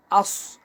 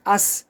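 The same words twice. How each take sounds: First: "আস" with a full, rounded-mouth Sad at the end; rounded Sad sound. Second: Said in the usual way. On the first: Shown as a demonstration. Teacher showing learners the Sad letter, "আস" said round-mouthed. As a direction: say "আস" with rounded lips, a heavy final s. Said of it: "এটা গোল করে পড়তে হবে". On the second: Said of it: "সিন, হ্যাঁ".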